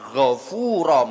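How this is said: It starts with a throaty gh and uses f. This is the original Arabic word meaning forgiving. "arep ngomong ghafura metot-metot angel"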